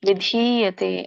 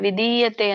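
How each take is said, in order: First: The second syllable has a long vowel. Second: The second syllable has a short vowel. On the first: The speaker calls it right. "ಅದು ದೀರ್ಘ ಇದೆ, ಒತ್ತಿದೆ ಕೆಳಗಡೆ, ವಿಧೀಯತೆ ಅಂತ ಹೇಳ್ಬೇಕು" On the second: The speaker calls it wrong. "ವಿಧೀಯತೆ ವಿಧೀಯತೆ ಅಂತ ಹೇಳಿ ನೀವು"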